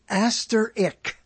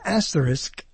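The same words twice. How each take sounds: First: The word ends with an 'ick' sound. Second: The word ends with an 'isk' sound. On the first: The speaker calls it wrong. "everybody in Brooklyn says asterisk. ... It's an asteroid with an ick" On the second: The speaker calls it right. "See, I said that correctly"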